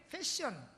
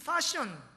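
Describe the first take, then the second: First: The first vowel sounds like 'ae'. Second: The first vowel sounds like 'ah'. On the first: "이게 패션" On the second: "이 파션이라고 발음하면"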